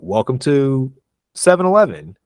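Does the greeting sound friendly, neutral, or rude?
friendly. The greeting sounds warm and friendly. The speaker is being polite to the customer. "That sounds friendly"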